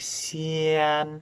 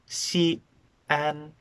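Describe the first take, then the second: First: The vowels run together with no glottal stop. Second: A glottal stop separates the two vowels. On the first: The speaker calls it wrong. "I'm not saying Xi'an" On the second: The speaker calls it right. "it's Xi'an"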